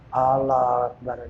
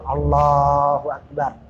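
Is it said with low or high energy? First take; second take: low; high. First: It is said weakly and limply. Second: It is said earnestly and with vigor.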